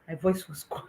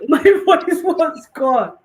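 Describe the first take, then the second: First: Softer, hushed reveal through a laugh; quiet punchline. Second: Higher, louder and slow, said through laughter; laughing. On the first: Telling listeners her voice vanished, quiet. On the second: Repeating the punchline to listeners, laughing. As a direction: laugh the words out. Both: Real, not acted.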